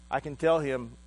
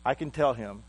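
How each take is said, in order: Both takes have the same delivery.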